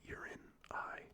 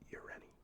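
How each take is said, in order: First: The name sounds like 'urine eye'. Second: The name does not sound like 'urine eye'. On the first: The speaker calls it wrong. "would be a horrible pronunciation" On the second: The speaker calls it right. "I believe it's Ureni"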